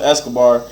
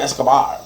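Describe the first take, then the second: First: The name is said plainly, without a put-on accent. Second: The name is said with a strong put-on accent. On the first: "He don't say Santos Escobar" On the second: "he said it with such an accent"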